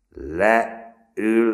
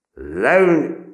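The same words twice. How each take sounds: First: High, loud command; loud repeated command; shouted order. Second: High, loud barked command; loud drill command; harsh shouted order. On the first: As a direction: order them down sharply. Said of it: "ismételte Schulze". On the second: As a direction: bark it again at the boy. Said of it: "sergeant repeats order". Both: A narrator's reading.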